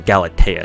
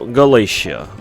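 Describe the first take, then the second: First: The consonant after 'Gala' is a hard t. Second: The consonant after 'Gala' is an sh sound. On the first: The speaker calls it right. "it's a hard T" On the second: The speaker calls it wrong. "with the sh uh, sound"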